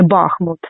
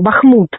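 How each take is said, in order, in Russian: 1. Ударение на первом слоге. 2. Ударение на втором слоге. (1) "а не" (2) "з правильним наголосом"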